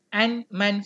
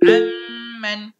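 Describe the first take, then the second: First: A separate n is heard before the m. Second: The n merges fully into a doubled m. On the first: The speaker calls it wrong. "Jangan baca an-man, salah" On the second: The speaker calls it right. "Kena masuk terus amman"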